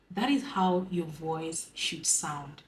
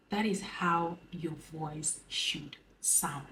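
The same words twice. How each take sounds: First: Slow, calm and even. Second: Slow, soft, gentle; soft soothing voice. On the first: To her viewers, modelling a calm soothing voice. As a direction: let it flow like a river. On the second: To her viewers, modelling a soft soothing voice. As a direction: murmur it sweetly, as to a crush. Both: Shown as a demonstration.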